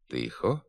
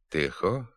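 First: The stressed vowel is clear, not toward 'e'. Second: The stressed vowel is lowered toward 'e'. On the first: This is the standard literary pronunciation. The speaker calls it right. "вимовляється без наближення до «е»" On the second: This is a western regional dialect pronunciation. The speaker calls it wrong. "звук «і» вимовляють з досить помітним нахилом до «е»"

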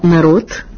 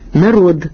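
First: The final consonant is voiceless. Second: The final consonant is voiced. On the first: The speaker calls it wrong. "грубе порушення вимовної норми" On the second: The speaker calls it right. "дзінка вимова приголосних у кінці слова"

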